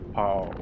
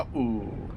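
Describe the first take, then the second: First: The vowels run together without a catch. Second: A catch in the throat splits the vowels. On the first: The speaker calls it wrong. "If there was no Okina and Kahako" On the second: The speaker calls it right. "Pa'u, not Pau"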